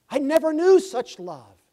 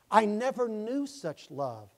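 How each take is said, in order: First: Much higher and louder, ringing out; preaching shout. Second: Slower, higher and louder, filled with wonder; moved testimony. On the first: Acted. Preacher calling the line out to the church, loud. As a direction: cry it out over the congregation. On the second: Retold or imitated. Convert testifying to the church, slow and swelling. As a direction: let the wonder swell, slowly.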